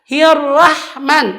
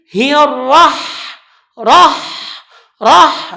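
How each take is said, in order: First: Hirrahman slow and thin; wrong reading. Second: Hirrah with flowing h; correct h. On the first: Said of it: "Tidak boleh dibaca". (hirrahman salah) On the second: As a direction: rah said breathy and heavy. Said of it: "maka dia berjalan". (rah dengan H berjalan) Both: Shown as a demonstration.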